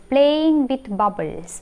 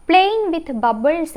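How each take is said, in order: First: "playing with bubbles" stretched out very slowly, each word held; slow, drawn-out repeat. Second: Said in the usual way. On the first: Shown as a demonstration. Teacher repeating a memory hook to students, very slow and deliberate. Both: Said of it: "bubbles ആയി നമുക്ക് connect ചെയ്യുമ്പോൾ കിട്ടും".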